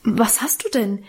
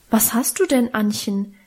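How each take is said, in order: First: Mildly alarmed question; a touch of fright, lightly voiced; startled. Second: Mildly taken aback, concerned question; dismayed. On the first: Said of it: "fragte auch seine Frau erschrocken". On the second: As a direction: ask with a touch of dismay. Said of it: "fragte der gute Herr Pastor bestürzt". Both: A narrator's reading.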